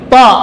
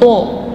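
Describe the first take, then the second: First: The lips stay unrounded, giving an a vowel. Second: The lips are rounded, giving an o-like vowel. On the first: The speaker calls it right. "tapi ta" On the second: The speaker calls it wrong. "tidak perlu monyong bibir, bukan to"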